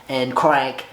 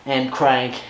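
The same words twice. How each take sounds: The two takes are said the same way.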